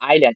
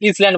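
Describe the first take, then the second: First: It starts with 'eye' and has no s sound. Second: It starts with 'is' and has an s sound. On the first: The speaker calls it right. "আইল্যান্ড আই আইল্যান্ড আ আসছে প্রথমে" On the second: The speaker calls it wrong. "ইসল্যান্ড বলবো না"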